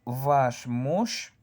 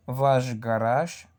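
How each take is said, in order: First: "Ваш" ending in hissed sh before "муж"; unvoiced final sh. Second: "ваш" ending in buzzing zh before "гараж"; sh voiced as zh. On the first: Teacher reads an example phrase for learners, voiceless sh. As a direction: keep "Ваш" voiceless at its end. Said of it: "Aquí yo sí voy a pronunciar". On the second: Teacher shows sh changing before a G, voiced zh. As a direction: run "ваш" into "гараж" as vazh garazh. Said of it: "pronunciar la sh como una R". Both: Shown as a demonstration.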